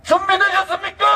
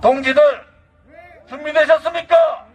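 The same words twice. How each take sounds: First: Higher rallying call. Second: Rallying call. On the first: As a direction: call it again even higher to rouse them. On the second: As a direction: call the crowd to readiness. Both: Acted.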